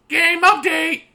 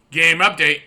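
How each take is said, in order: First: High, loud excited shout; excited exclamation. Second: Said in the usual way. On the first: Acted. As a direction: announce it with big excitement. Exclaimed title.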